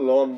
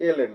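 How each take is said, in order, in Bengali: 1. এটা এক সিলেবল হিসেবে বলা হয়, lon। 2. দুটো অক্ষর আলাদা আলাদা করে বলা হয়। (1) "এটাকে লন বলা যাবে না" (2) "এটা ln"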